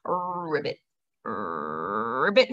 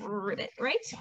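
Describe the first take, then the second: First: Much lower, croaky frog ribbit; frog croak. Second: Said in the usual way. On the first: Shown as a demonstration. Teacher giving the frog's sound as a riddle for the children, croaking. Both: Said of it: "they go ribbit".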